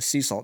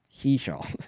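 First: The s sounds are clear and sharp. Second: The s sounds are lisped, like sh. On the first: The speaker calls it right. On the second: The speaker calls it wrong.

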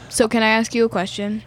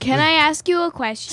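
First: It is said flatly, without enthusiasm. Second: It is said with lively enthusiasm.

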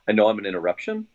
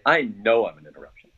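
First: The voice rises where it should fall. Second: The voice falls, with heavy weight on know. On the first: The speaker calls it wrong. "your voice went up where it should have gone down right here" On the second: The speaker calls it right. "You got to hammer the word no just like that"

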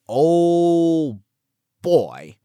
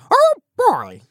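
First: It is said in his normal voice. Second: It is said as a Mickey Mouse impression.

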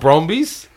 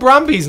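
First: The first vowel sounds like 'oh'. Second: The first vowel sounds like 'uh'. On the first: This is how the other person says it. The speaker calls it wrong. "not Brombies" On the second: This is the speaker's own home pronunciation. The speaker calls it right. "We call them Brombies"

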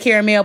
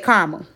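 First: Caramel is said in the non-Chicago way. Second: Caramel is said in the Chicago way. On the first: This is how the speaker never says it. "I do not say caramel" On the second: This is how the speaker normally says it. "I'm from Chicago, so I say caramel"

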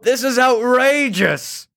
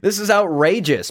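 First: It is read with dramatic, exaggerated inflection. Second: It is read plainly, with little inflection. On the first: The quoted outrage is being acted out. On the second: The quote is simply being read out.

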